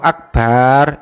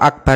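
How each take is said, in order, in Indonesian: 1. Vokal setelah b itu panjang. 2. Vokal setelah b itu pendek. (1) "dengan hanya memanjangkan ba itu artinya sudah berubah" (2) "kalau akbar itu maha besar"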